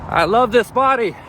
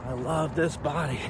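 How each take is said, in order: First: Loud mantra. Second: Quiet mantra. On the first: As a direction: shout the mantra high and loud. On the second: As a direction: say the mantra gently to yourself. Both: Real, not acted. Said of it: "Just keep saying that mantra".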